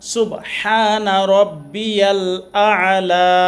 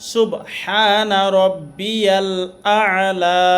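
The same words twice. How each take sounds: First: The throat sound before 'la' is clearly present. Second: The throat sound before 'la' is clearly present.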